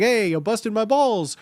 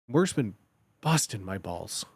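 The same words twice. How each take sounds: First: Lively joking jab at a pal; playful ribbing. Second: Low, soft, sincere complaint; earnest weary grumble. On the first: Joking with friends, playful ribbing. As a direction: tease it out, mock-indignant and fun. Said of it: "It can be fun with your friends". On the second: Answering a friend about work, earnest grumble. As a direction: drop low and quiet, as if worn down. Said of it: "So you could be earnest". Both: Shown as a demonstration.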